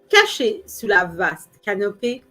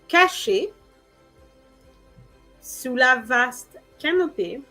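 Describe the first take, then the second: First: It is said at a normal, flowing pace. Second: It is said slowly, as a separate chunk.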